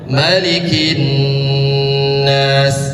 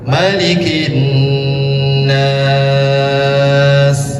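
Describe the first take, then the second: First: The last long vowel is held for two counts. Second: The last long vowel is held for six counts. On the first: "dua harkat" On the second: "Enam harkatnya lebih panjang"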